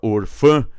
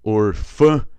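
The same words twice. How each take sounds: Both takes have the same delivery.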